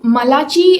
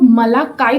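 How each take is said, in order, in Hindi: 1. यह नाम 'ch' की आवाज़ से बोला जाता है। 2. यह नाम 'k' की आवाज़ से बोला जाता है। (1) "वो लोग मलाची प्रोनाउंस नहीं करते हैं" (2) "वो लोग मलाकाई प्रोनाउंस करते हैं"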